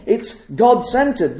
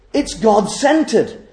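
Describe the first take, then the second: First: Said in the usual way. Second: Slow, deliberate emphasis on God-centered; slowly. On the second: Shown as a demonstration. Preacher slowing down so the congregation takes it in, slow. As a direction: let "God-centered" land slowly, word by word. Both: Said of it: "this couldn't be, uh, said too quickly".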